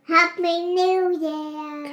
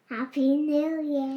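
First: It is said loudly. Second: It is said softly.

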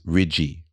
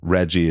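First: The first vowel sounds like 'ee'. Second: The first vowel sounds like 'eh'. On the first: "it's E instead of eh" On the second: "instead of eh"

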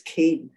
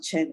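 First: The word begins with a k-like sound. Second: The word begins with a ch sound. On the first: The speaker calls it right. "it's pronounced that way, it's Cain" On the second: The speaker calls it wrong. "it's not Chen"

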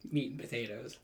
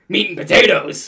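First: It is said in a plain, neutral way. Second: It is said in an angry way.

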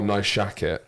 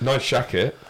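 First: The phrase is said in an earnest tone. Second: The phrase is said in a jokey tone. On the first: The word is treated as a serious compliment. The speaker calls it wrong. "they'll say it like that, like it's not. It's a silly word" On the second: The word is treated as a silly, tongue-in-cheek compliment. The speaker calls it right. "should be taken less seriously"

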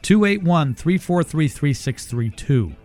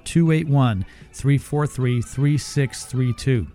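First: The number is read at a normal pace. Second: The number is read a little more slowly.

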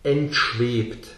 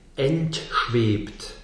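First: The word is said fast, with a brief T. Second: The word is said slowly, with a clearly articulated T. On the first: "wenn ich es schneller spreche" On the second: "wenn ich das Wort langsam spreche"

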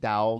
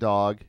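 First: The word is said with a Southern drawl. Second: The word is said in a neutral accent. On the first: "I'll start saying dog" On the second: "instead of dog"

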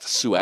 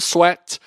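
First: The name is said like the word suet. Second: The name is said like the word sweat. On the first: The speaker calls it right. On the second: The speaker calls it wrong. "not Sweat"

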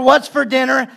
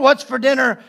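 First: It is said in an excited tone. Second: It is said in a suspicious tone.

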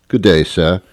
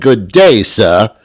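First: It is said calmly at a normal volume. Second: It is said angrily and loudly. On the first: It is an ordinary polite greeting. "a man says to another man" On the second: The other person is being told to leave. "They get pissed off by being polite loud"

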